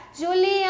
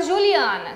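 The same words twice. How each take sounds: First: Juliana called out higher, with a long-held AN; calling a friend, JuliAAANa held long; drawn-out calling. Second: Said in the usual way. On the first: Shown as a demonstration. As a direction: call Juliana from the gate, stretching the stressed syllable. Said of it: "Aí eu vou gritar". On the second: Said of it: "No nome Juliana".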